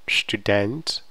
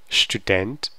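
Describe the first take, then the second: The two takes are said the same way.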